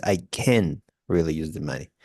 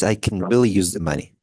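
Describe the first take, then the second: First: "can" reduced and lower; the second, reduced "can"; second version. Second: "can" with a full /æ/ vowel; the first way to say "can"; first version. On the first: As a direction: say "can" quick and unstressed, lower. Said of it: "And the second one is". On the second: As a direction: give "can" its open vowel. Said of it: "the first one is". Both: Shown as a demonstration.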